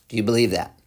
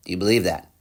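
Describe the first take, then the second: No difference in how they are said.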